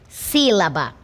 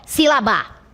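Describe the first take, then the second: First: The stress is on the first syllable. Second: The stress is on the last syllable. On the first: The speaker calls it right. "tem como sílaba tônica a antepenúltima sílaba" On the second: The speaker calls it wrong. "deslocar para cá, para a última sílaba"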